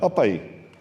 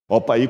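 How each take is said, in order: First: It is said in a Bahian accent. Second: It is said in a Minas Gerais accent.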